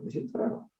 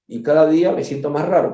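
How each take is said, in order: First: Breathy mock whisper, trailing off; comic whispered repeat; whispered aside. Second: Said in the usual way. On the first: Repeats feeling weird, trailing off.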